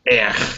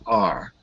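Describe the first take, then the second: First: The letter is said with an er vowel. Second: The letter is said with an ar vowel. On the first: The speaker calls it wrong. "Not er" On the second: The speaker calls it right. "but R"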